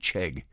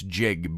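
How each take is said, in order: First: The syllable is said like 'chegg'. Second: The syllable is said like 'jig'. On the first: The speaker calls it wrong. "I want to keep saying Chegg" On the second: The speaker calls it right. "It's Jig"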